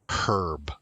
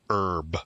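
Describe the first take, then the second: First: The opening h sound is pronounced. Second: The opening h sound is silent. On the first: This is the British way. "you probably learned it as herb" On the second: This is the American way. "that's the American pronunciation"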